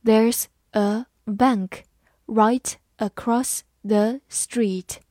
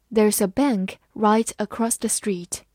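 First: Drawn out word by word; slow, careful demo read. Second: Said in the usual way. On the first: Shown as a demonstration. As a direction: read it slowly so students can copy. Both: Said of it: "好，慢慢来读。".

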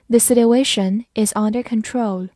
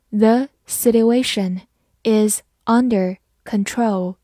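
First: Said in the usual way. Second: Slow, careful model reading. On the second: Shown as a demonstration. Teacher slowly reading the example sentence. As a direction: read it slowly for learners. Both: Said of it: "好，慢读一遍".

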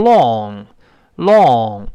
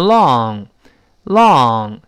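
First: "long" very slow with a rounded British vowel; wrong British "long". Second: "long" very slow, open vowel; correct long. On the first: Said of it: "读成英式发音". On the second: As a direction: stretch "long" slowly. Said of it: "注意那个长的". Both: Shown as a demonstration.

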